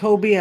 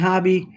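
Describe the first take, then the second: First: The first vowel is a long 'oh' sound. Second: The first vowel is a short 'o' sound. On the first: "I've heard it pronounced Hobie" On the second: "and hobby"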